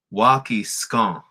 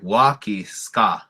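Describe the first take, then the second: First: "Waki scone" slowly, the last vowel through the nose; nasal vowel. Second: "Waki ska" with a pure oral a, drawn out slowly; oral vowel. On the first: Teacher contrasting snow is melting, nasal vowel. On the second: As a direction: end ska on an open ah, no nose. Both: Shown as a demonstration. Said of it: "the nasal sound".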